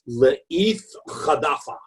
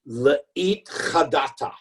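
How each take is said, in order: First: The t sounds are pronounced as soft th. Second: The t sounds are pronounced as hard t.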